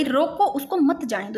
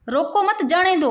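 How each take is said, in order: First: "रोको" set apart, then "मत जाने दो"; pause after रोको. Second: "रोको मत" grouped together, then "जाने दो"; higher pitch, "मत" joined to "रोको" before "जाने दो"; pause after मत. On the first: Teacher showing students the comma after "रोको", pause after रोको. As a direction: break right after "रोको", keeping "मत" with "जाने दो". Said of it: "इसको अगर अपने यहाँ लगाते हैं तो". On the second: Teacher showing students the comma moved after "मत", pause after मत. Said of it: "अगर इसको यहाँ लगा दे रोको मत". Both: Shown as a demonstration.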